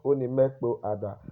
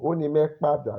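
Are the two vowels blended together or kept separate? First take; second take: separate; blended. First: Both vowels are kept as two separate words. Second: The two vowels merge into one smooth word. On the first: This is how it appears in writing. The speaker calls it wrong. "not Onimekpo Ada. That is the written Yoruba" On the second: This is how it sounds in fluent speech. The speaker calls it right. "to be fluent in Yoruba"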